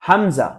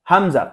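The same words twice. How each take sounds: The two takes are said the same way.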